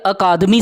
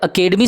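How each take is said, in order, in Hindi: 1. यह शब्द हिंदी तरीके से बोला गया है, 'akaadami'। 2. यह शब्द अंग्रेज़ी तरीके से बोला गया है, 'akedemi'। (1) "हिंदी में अकादमी" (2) "इंग्लिश में अकेडमी"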